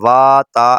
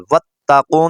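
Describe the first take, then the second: First: The opening 'wa' vowel is drawn out long. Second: The opening 'wa' vowel is kept short. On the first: The speaker calls it wrong. "اس کو ہم نے لمبا کرنا ہے، وا تا ایسے پڑھنا ہے، ایسے غلط ہو جائے گا" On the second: The speaker calls it right. "ان تینوں کو ہم نے نہیں پڑھنا"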